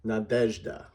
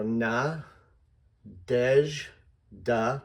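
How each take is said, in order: First: "Nadezhda" joined up, weight on the "dezh"; whole name, middle stressed. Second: "na, dej, da" broken into separate syllables with pauses. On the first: Teacher models the name with emphasis shown, middle-stressed "Nadezhda". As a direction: say "Nadezhda" as one word, stressing its middle syllable. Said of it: "made the middle syllable the big". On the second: Teacher breaks down a hard name for readers, syllable by syllable. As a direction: sound out "na", "dej" with a zh ending, then "da". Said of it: "Here's how I would do that". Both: Shown as a demonstration.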